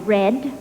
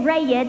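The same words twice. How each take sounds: First: It is said without a Southern American accent. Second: It is said in a Southern American accent. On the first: "now I say red" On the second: "I used to say red"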